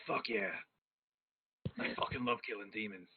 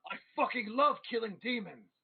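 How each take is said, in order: First: Low, soft, understated declaration; subdued, lower-pitched vow; low-key relish. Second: Put-on high, excited boast from a drunk priest; rowdy drunken declaration; drunken exultation. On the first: Acted. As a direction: say it low and quiet, savouring it. Priest's low reply, catchphrase again. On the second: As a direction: crow it out with rowdy glee, pitch swooping up. Drunk priest slams drink, exclaims.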